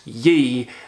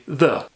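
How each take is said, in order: First: The word begins with a y sound. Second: The word begins with a th sound. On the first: The speaker calls it wrong. "It's not pronounced ye" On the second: The speaker calls it right. "it's supposed to be the"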